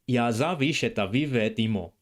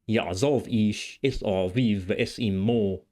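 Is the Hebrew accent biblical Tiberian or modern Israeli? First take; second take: modern; biblical. First: It is read in a modern Israeli Hebrew accent. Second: It is read in a biblical Tiberian Hebrew accent. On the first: "in both modern Hebrew pronunciation" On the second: "and in Tiberian pronunciation"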